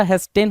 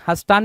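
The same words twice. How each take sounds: First: हेस्टेन with "e" sounds and a short "ten"; correct pronunciation. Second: हस्तान with a long "taan", said as the misspelt word reads; wrong spelling-based pronunciation. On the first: Teacher correcting students with "hes-ten". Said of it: "हेस्टेन होता है". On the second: Teacher mocking the misspelt form for students, long "aan". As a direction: read हस्तान with a stretched final "aan". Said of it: "हस्तान नहीं होता". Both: Shown as a demonstration.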